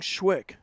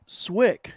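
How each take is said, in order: First: The name begins with an sh sound. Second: The name begins with a plain s sound. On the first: "You kept saying Schwick" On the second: "we're talking about the pronunciations"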